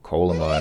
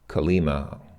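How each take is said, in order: First: The stress falls on the first syllable. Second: The stress falls on a later syllable.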